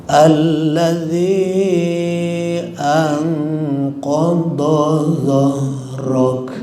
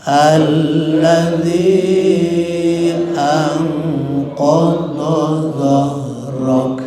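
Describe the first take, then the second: Both takes have the same delivery.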